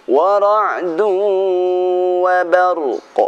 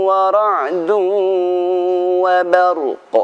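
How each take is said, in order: Both takes have the same delivery.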